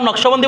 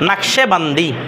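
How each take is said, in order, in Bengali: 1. 'sh' এবং 'b'-এর মাঝে কোনো স্বরধ্বনি শোনা যায় না। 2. 'sh' এবং 'b'-এর মাঝে একটি 'e' স্বরধ্বনি শোনা যায়। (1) "নকশবন্দি বলে না" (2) "ফার্সিতে নাকশেবান্দি"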